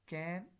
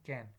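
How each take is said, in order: First: The vowel is said in its full form. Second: The vowel is reduced to a schwa. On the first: "full form" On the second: "Schwa sound can"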